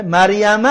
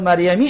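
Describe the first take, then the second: First: مریم said with final -a, "maryama"; ending in -a. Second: مریمی said with final "ee", "maryami"; ending in -i. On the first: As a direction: end مریم on an open "a" vowel. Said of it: "باید مجرور شود". (مریم با فتحهٔ آخر) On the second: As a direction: end مریمی on a kasra "i" vowel. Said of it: "باید مریمی شود". (مریمی با کسرهٔ آخر) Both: Shown as a demonstration.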